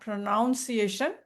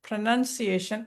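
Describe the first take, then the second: First: The second syllable sounds like 'noun'. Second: The second syllable sounds like 'nun'. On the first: The speaker calls it wrong. "ப்ரோனவுன் மாரி வந்துரும்" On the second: The speaker calls it right. "ப்ரொனன்சியேஷன் தான் correct"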